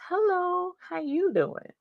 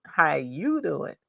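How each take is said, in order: First: High lilting hello to a viewer; greeting in a much higher voice; sing-song greeting. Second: Drawn-out greeting. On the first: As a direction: toss it up high and bright. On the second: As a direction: draw out each word. Repeated greeting in chat. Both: Real, not acted.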